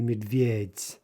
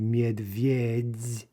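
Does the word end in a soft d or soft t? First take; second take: soft t; soft d. First: The word ends with a voiceless soft t. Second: The word ends with a voiced soft d. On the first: The speaker calls it right. "with a final soft T" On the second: The speaker calls it wrong. "we don't say medvedz"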